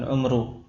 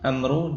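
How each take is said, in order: First: The first vowel is a rounded 'u' sound. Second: The first vowel is an open 'a' sound. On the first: "al-umru dengan dhammah" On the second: "amr dengan fathah ain"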